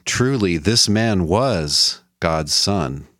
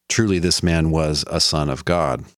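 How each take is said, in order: First: Solemn confession. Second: Said in the usual way. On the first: Retold or imitated. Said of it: "he confesses". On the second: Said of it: "Or you could translate".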